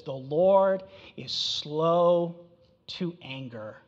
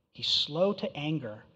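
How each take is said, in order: First: Drawn out very slowly, fading at the end; very slow scripture reading; slow, weighty quote. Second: Said in the usual way. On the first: Shown as a demonstration. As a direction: linger on each word of the verse. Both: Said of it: "But then Nahum says what?".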